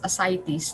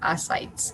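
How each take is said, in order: First: The stress is on the second syllable. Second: The stress is on the first syllable. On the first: The speaker calls it right. "is pronounced as ascites" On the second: The speaker calls it wrong. "not ascites"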